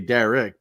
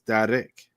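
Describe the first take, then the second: First: The R is a plain American R. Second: The R is rolled. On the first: "in America you say Derek" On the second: "you roll them, so it's Derek"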